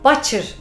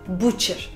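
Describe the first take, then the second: First: The first vowel is pronounced as an 'a' sound. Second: The first vowel is not pronounced as an 'a'. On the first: The speaker calls it wrong. "Butcher diye söyleyesi gelir ve doğal çünkü genelde orada bir A sesi çıkarmak isteyebilirsiniz" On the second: The speaker calls it right. "maalesef butcher diyeceğiz"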